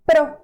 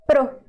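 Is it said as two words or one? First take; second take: one; one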